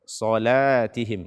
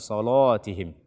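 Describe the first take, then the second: First: The l after the first syllable sounds light. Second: The l after the first syllable sounds heavy. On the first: The speaker calls it right. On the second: The speaker calls it wrong.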